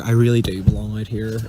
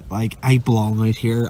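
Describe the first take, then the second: First: Really leaned on, sincere and low; stress on really. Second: Said in the usual way. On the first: Real, not acted. Overjoyed sailor insists to friend, really stressed. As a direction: lean into the word really.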